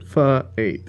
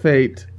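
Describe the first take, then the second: First: It is said as a letter, then a number. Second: It is said as the single word fate. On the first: The speaker calls it right. "they would want you to pronounce it F eight" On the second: The speaker calls it wrong. "Not Fate"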